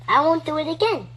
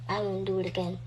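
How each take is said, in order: First: It is said in a childish baby voice. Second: It is said in a normal, serious voice.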